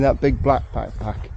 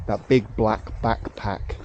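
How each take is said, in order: First: "that big black backpack" tripped over, consonants tangled; tongue-twister stumble. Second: "that big black backpack" said slowly, each word separate; slow careful retry. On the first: Real, not acted. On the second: Shown as a demonstration. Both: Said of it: "that's a hard one to say".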